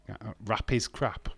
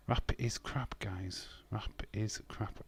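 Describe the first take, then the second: First: Said in the usual way. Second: Soft, slow, almost whispered; hushed repeat. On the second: Pretend. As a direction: mutter it under your breath. Repeats viewer's line quietly.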